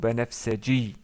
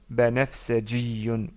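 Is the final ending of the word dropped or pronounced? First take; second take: dropped; pronounced. First: The word is said without its final ending. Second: The word is said with its full final ending.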